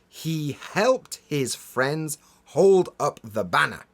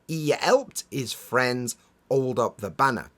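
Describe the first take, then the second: First: The H sounds at word starts are pronounced. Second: The H sounds at word starts are dropped. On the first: "Those H sounds at the beginning of those words are quite hard to pronounce" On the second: "usually we'll just skip them, and the sentence becomes"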